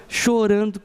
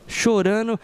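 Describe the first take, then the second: No difference in how they are said.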